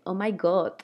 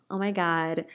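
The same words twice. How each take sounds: First: It has little or no American accent. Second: It has a strong American accent.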